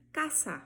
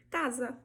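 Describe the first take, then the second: First: CASA with a hissed S, "cassa", never Z; Spanish S. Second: Said in the usual way. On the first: Shown as a demonstration. Teacher showing Spanish has no Z, casa with S sound. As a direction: say the S of casa voiceless. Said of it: "sempre vai ter som de S". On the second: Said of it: "a pronúncia vai ser diferente".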